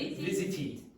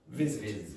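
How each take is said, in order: First: An extra ee vowel follows the final t. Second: It ends cleanly on the final t.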